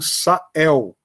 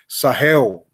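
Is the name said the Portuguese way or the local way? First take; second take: Portuguese; local. First: It is said with a plain Portuguese pronunciation. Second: It is said with the local people's pronunciation.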